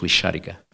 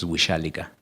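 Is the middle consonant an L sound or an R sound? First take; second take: R sound; L sound. First: The middle consonant is an R sound. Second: The middle consonant is an L sound. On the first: It is the plain northern-dialect form. "pronunciado de acuerdo con el dialecto del norte" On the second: It is said affectionately. "si se pronuncia cariñosamente, la R se convierte en L"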